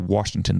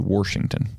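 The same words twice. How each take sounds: First: Washington is said in a general American accent. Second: Washington is said in a regional Missouri accent. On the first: "people in Missouri don't say Washington" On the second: "they say Washington. So it's, you need to wash your hands"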